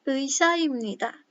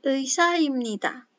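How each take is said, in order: The two takes are said the same way.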